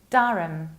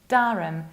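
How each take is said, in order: First: The H is dropped in the ending. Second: The H is dropped in the ending.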